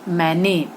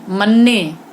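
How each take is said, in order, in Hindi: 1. पहला स्वर अनुनासिक 'ai' है। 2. पहला स्वर छोटा 'a' है।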